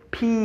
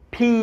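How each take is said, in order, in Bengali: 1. "p" উচ্চারণে বাতাসের ফুঁ দিয়ে ছাড়া হয়। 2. "p" উচ্চারণে বাতাসের ফুঁ দিয়ে ছাড়া হয়।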